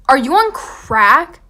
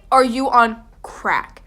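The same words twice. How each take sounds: First: Louder, slow disbelief rising at the end; incredulous. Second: Slow, louder disbelief falling flat at the end; firm incredulous. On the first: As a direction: ask like they've lost their mind. Refusing friends' crazy idea. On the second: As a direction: say it as a final verdict. Repeats the question, firmer. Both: Retold or imitated.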